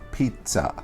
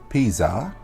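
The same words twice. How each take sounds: First: The middle consonant is a ts sound. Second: The middle consonant is a plain z sound. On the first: The speaker calls it right. "you would spell it like P I T Z A" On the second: The speaker calls it wrong. "Pizza is not pizza"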